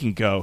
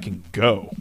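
First: It sounds dismissive, like shooing someone away. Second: It sounds admiring, like being impressed by someone. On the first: The person should leave. The speaker calls it wrong. "Not like, oh, he can go. He can get out of here" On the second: The person is very talented. The speaker calls it right. "It's more like a, oh, that guy can go"

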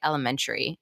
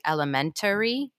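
First: The word is said with a syllable dropped. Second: The word is said with an extra vowel syllable. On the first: "I say elementary" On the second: "Is there supposed to be a whole other vowel slash syllable in there?"

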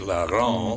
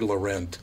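First: The name is pronounced in a French way. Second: The name is pronounced in an English way.

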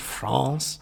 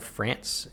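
First: It is said with a French pronunciation. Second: It is said with an English pronunciation.

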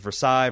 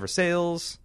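First: It is said the standard French way. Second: It is said to sound like 'for sales'. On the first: The speaker calls it right. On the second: The speaker calls it wrong.

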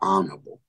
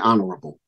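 First: Some syllables of the word are dropped. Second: Every syllable of the word is pronounced fully. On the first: "He don't put all the syllables. He say" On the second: "He don't say honorable"

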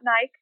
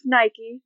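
First: The name is said a non-American way. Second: The name is said the American way. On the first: The speaker calls it wrong. "not Nike" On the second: The speaker calls it right. "It's an American company, and it is Nike"

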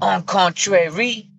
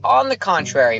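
First: It is said with a French accent. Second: It is said with a plain English accent. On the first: The speaker sounds pretentious. The speaker calls it wrong. "with a French accent" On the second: The speaker sounds natural. The speaker calls it right. "Just say"

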